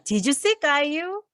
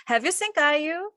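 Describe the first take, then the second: First: "Did you see 까유" drawn out slowly with a rise; slow, careful demo; slow model sentence. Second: "Have you seen 까유" drawn out slowly with a rise; slow, careful demo; slow model sentence. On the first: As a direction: contrast it with the present perfect. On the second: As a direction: contrast it with the past tense. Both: Shown as a demonstration. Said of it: "이 두 문장의 차이가 뭘까".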